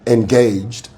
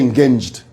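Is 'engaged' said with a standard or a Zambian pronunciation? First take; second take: standard; Zambian. First: The word has a standard English pronunciation. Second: The word has a local Zambian pronunciation. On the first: The speaker calls it right. "that's the correct way to say that word" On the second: The speaker calls it wrong. "In Zambia we say engaged. That's wrong"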